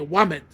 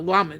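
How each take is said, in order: First: The word begins with a W sound. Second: The word begins with a clear L sound. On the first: "they say wamed" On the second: "can't say the lamed"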